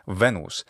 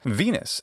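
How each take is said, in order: First: It uses the ecclesiastical Latin pronunciation. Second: It uses the English pronunciation. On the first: "in ecclesiastical pronunciation is" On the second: "in English"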